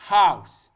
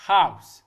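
No difference in how they are said.

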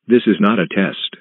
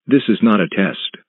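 No difference in how they are said.

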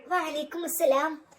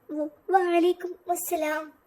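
First: Said in the usual way. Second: Slow, stammering വ-, വഅലൈക്കും അസ്സലാം with a nervous catch; a shy bride too frightened to get വഅലൈക്കും out smoothly; trembling. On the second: Acted. Bride answering the groom's greeting, stammering and trembling. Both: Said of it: "അവൾ വിറച്ചുകൊണ്ട് പറഞ്ഞു".

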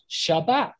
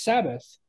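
First: "Shabbat" with sh first and t last; sh pronunciation. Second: "Sabbath" with s first and th last; s pronunciation. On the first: Teacher showing how others say it, sh pronunciation. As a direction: say "Shabbat" opening on sh, stressing the last syllable. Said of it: "with a S H sound". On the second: Teacher showing how some people say it, s pronunciation. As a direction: say "Sabbath" opening on plain s, ending in th. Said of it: "pronounce it with a s sound". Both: Shown as a demonstration.

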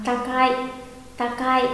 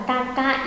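First: "Takai" in two beats, ta-kai; linked vowels. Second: "Takai" as ta-ka-i, i on its own; separate vowels. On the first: Teacher gives students the joined reading, vowels linked. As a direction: glide "Takai" shut on one final syllable. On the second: Teacher asks students about the wrong reading, vowels apart. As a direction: split "Takai" into three beats. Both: Shown as a demonstration. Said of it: "Mà đọc là".

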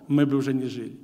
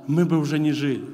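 Both takes have the same delivery.

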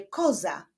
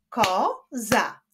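First: Said in the usual way. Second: "Koza" split as ko, za with a pause; syllable by syllable. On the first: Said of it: "wyklaszczmy sylaby w wyrazie". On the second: Shown as a demonstration. Teacher clapping out syllables for pupils, "Koza" split in two. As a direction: clap out "Koza" in two separate beats. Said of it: "wyklaszczmy sylaby w wyrazie koza".

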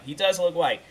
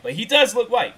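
First: Said in the usual way. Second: "does" pushed high and loud; stress on does. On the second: Real, not acted. Insisting to viewers, "does" stressed high.

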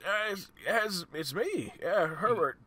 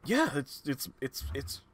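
First: Put-on high, slow, wavering old-timer; old man voice. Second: Said in the usual way. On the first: Darren greets Herbert after ten years, old man voice. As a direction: play a higher-pitched elderly man. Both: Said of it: "I gotta do an old man voice".

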